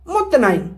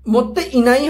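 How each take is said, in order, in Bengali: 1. 'nai'-র আগের 'i' ধ্বনিটি বাদ পড়ে। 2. 'nai'-র আগের 'i' ধ্বনিটি উচ্চারিত হয়। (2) "মত্তে ইনাই হয়"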